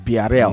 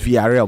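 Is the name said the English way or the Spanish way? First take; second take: Spanish; English. First: The name is said with Spanish-style sounds. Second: The name is said with English-style sounds. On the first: The speaker calls it right. "but it's no, it's Villarreal" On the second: The speaker calls it wrong. "when you see a V, you think it's Villarreal"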